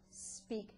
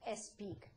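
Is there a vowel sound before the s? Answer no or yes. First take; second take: no; yes. First: The word starts directly with the s sound. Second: A short vowel is added before the s. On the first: The speaker calls it right. "but speak" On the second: The speaker calls it wrong. "not speak"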